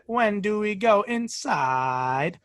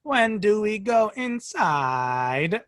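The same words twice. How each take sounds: First: Slow, odd rising intonation; robot mimicking child. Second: Put-on slow, sing-song robot child; robot mimicking child. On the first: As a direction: drag it out with strange tune. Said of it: "Very unusual intonation". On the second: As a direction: speak slowly with unnatural child-like tune. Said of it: "a robot trying to mimic a child".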